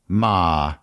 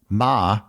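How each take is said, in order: First: It is said in the dipping third tone. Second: It is said in the high level first tone. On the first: It means horse. "In the third tone" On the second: It means mother. "In the first tone"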